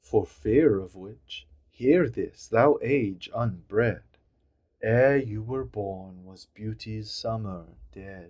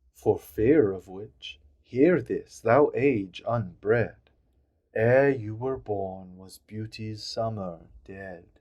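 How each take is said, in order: The two takes are said the same way.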